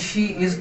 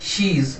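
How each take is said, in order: First: Both words are said fully and separately. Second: The words merge into one short syllable.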